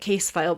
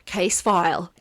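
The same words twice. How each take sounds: First: It is said in the speaker's usual accent. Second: It is said in an Australian accent.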